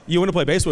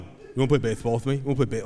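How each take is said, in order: First: Said in the usual way. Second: Fast, repeated lisped pestering; lisping four-year-old. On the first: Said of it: "And I go". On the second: Retold or imitated. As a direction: keep nagging dad as a lisping little boy. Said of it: "he just kept going".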